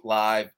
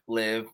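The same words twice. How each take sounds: First: Live said with a long i, like alive; live as in live broadcast. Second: Live said with a short i, like give; live as in the tour name. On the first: Explaining his podcast name, live said like a live show. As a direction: say live to rhyme with five, as in a live show. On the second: Spelling out the pun to the host, live said like give. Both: Shown as a demonstration. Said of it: "it's a little play on words".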